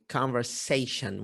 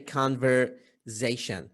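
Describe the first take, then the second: First: The middle consonant is pronounced as an S. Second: The middle consonant is pronounced as a Z. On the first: The speaker calls it right. "the correct pronunciation of this word is conversation with S" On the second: The speaker calls it wrong. "in Iraq, we tend to say conversation"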